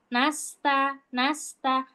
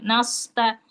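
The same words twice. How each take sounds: First: "Nasta" with a light s and open a; thin, ordinary letters. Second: "Nasta" with a dark s, like "nausta"; sullen, heavy "Nasta", low but not barked; curt thick sod. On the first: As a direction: say "nasta" thin, tongue relaxed. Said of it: "kita ngucapinnya biasa". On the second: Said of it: "Maksudnya yang judes gitu". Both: Shown as a demonstration.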